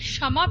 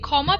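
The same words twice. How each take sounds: First: The first consonant sounds like 'sh'. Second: The first consonant sounds like 'kh'. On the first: The speaker calls it right. "সংস্কৃততে আমরা এটিকে বলি" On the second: The speaker calls it wrong. "আমরা কখনোই ক্ষমা প্রার্থনা মন্ত্র বলি না"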